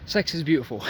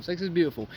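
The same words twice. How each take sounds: First: Said in the usual way. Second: "is" leaned on, firmly affirming the word is; stress on is. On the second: Shown as a demonstration. Telling his viewers, repeating it to insist on "is". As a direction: press down on "is" to insist it's true. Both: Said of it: "Let me just say this one more time".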